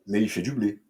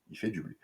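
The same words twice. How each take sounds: First: Said in the usual way. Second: Dropped to a soft, knowing murmur; repeating it to the viewers under the breath, much softer; quiet aside. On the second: Shown as a demonstration. Said to the camera as a softer, knowing echo.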